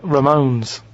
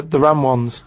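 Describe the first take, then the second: First: "Ramones" as one word, ruh-MOANS; band name pronunciation. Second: "Ram ones" as two words, ram and wunz; split into words. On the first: Revealing the band in the answer, "Ramones" run together as ruh-MOANS. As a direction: say "Ramones" with stress on a long second syllable. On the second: Giving away the cryptic clue, "Ram ones" as two separate words. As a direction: say "Ram ones" literally, like ones that are rams. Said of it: "That's, that's Ramones". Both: Shown as a demonstration.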